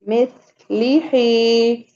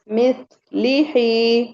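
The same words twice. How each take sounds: The two takes are said the same way.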